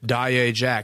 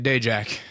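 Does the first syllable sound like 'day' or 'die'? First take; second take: die; day. First: The first syllable sounds like 'die'. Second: The first syllable sounds like 'day'. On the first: The speaker calls it right. "It's Die Jack" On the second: The speaker calls it wrong. "I would have been pronouncing it Day Jack"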